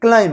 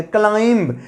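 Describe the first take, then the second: First: क्लाइम said ending on m; क्लाइम with no b sound; silent b. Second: क्लाइंब said with the b sounded at the end; क्लाइंब with an audible b, the wrong way; wrong pronunciation. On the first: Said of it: "इसका pronunciation होगा क्लाइम". (क्लाइम, बी silent) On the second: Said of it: "pronunciation क्लाइंब नहीं". (क्लाइंब बी बोलकर, गलत तरीका) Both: Shown as a demonstration.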